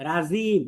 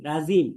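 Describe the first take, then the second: Both takes have the same delivery.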